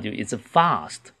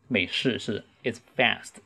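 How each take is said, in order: First: It is said in a British accent. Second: It is said in an American accent. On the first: "如果是英式的话" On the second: "美式是"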